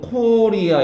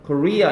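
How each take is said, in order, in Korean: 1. 강세는 첫 음절에 있어요. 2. 강세는 뒤쪽 음절에 있어요. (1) "우리는 코리아 이러는데" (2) "코리아 이렇게 뒤에 옵니다"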